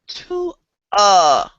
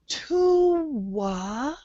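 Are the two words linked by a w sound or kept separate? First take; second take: separate; linked. First: The two vowels are kept apart without linking. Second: A w sound links the two vowels together. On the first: The speaker calls it wrong. "we don't say to a" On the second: The speaker calls it right. "We connect to wa with a W"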